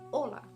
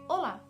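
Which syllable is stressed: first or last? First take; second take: first; last. First: The stress is on the first syllable. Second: The stress is on the last syllable. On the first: "the intonation is on the first part in o and not la" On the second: "So the intonation is in the last syllable"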